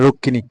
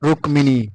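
First: The k is said and the m is silent. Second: Both the k and the m are said. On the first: This is the usual Bengali reading. "ক উচ্চারণটা হয়, মটা উচ্চারণ হয় না" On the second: This is the Sanskrit reading. "কিন্তু সংস্কৃত ভাষা হবে রুক্মিণী"

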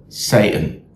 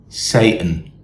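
The two takes are said the same way.

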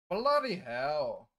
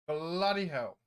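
First: It is said in a put-on Scottish-sounding accent. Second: It is said in the speaker's ordinary accent.

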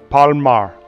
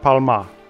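First: The name ends in an 'er' sound. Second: The name ends in an 'ah' sound. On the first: The speaker calls it right. "Palmer. Like ER" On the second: The speaker calls it wrong. "Not Palma"

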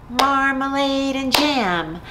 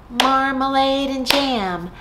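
The two takes are said the same way.

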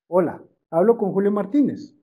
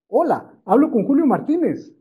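First: The voice is flat, monotone and bored. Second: The voice is warm, energetic and lively. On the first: The caller sounds like a routine call center agent. The speaker calls it wrong. "Se lo voy a leer como call center. ... que me estoy durmiendo ... Qué aburrido" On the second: The caller sounds engaging and effective. The speaker calls it right. "La clave de esto es el tono de voz"

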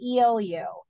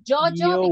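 First: It starts with a Y-like sound. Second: It starts with a J-like sound. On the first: The speaker calls it right. "You have to say yo, yo" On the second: The speaker calls it wrong. "You don't say Jojo because that is in Spanish"

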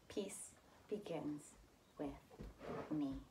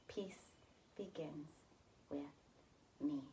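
No difference in how they are said.

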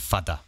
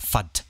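First: A final vowel is pronounced at the end. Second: The word ends without a final vowel. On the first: The speaker calls it wrong. "rather than fada" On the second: The speaker calls it right. "Another one is the fad"

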